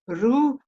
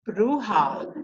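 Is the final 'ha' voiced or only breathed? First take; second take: breathed; voiced. First: The final 'ha' is only breathed, not voiced. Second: The final 'ha' is fully voiced. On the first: The speaker calls it right. "They just breathe the H A. They don't say it. They don't voice it" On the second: The speaker calls it wrong. "the way I pronounced it"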